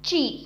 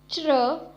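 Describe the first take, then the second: First: The syllable ends in a clear ee vowel. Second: The syllable ends in an r-like buzzing vowel. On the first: The speaker calls it wrong. "and not chi" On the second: The speaker calls it right. "Repeat after me, chr"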